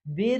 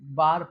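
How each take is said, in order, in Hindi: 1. स्वर 'eh' जैसा है। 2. स्वर 'ah' जैसा है। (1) "बेर नहीं" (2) "बार पढ़ेंगे"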